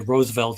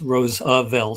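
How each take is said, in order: First: The name is said with two syllables. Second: The name is said with three syllables. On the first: The speaker calls it wrong. "Most people say Roosevelt is two syllables" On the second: The speaker calls it right. "it's Roosevelt, three syllables"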